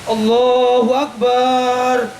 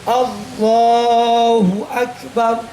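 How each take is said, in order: First: The vowel in Akbar is drawn out long. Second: The vowel in Akbar is kept short. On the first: The speaker calls it wrong. "Tidak boleh memanjangkan banyak lafaz akbar" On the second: The speaker calls it right. "Jadi harus begini, lihat"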